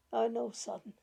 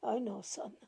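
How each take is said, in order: First: Said in the usual way. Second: Tired, softer whisper of resignation. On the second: Acted. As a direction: let it fade to a whisper. Grandmother repeats, fading to whisper.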